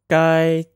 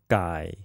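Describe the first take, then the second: First: The pitch stays high and level. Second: The pitch dips low and then rises.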